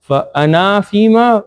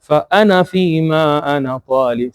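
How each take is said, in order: First: فَأَنَا with a long, raised final A; wrong recitation. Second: فَأَنَا with a short final A, then a long فِيمَا; right recitation. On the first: Teacher shows students the wrong way, final alif held long. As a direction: stretch and lift the last alif of فَأَنَا. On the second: Teacher corrects the mistake for students, final alif left short. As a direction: keep the end of فَأَنَا short. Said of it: "This is the right pronunciation". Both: Shown as a demonstration.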